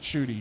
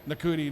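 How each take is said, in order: First: The name is said with two syllables. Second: The name is said with three syllables. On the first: The speaker calls it right. "everybody says pronounce it" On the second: The speaker calls it wrong. "at the very beginning of my show, I was going like"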